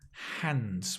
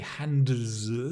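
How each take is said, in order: First: The D sound is dropped from the word. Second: The D sound is clearly pronounced in the word. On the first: The speaker calls it right. "The D also disappears" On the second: The speaker calls it wrong. "We don't say hands. It's impossible"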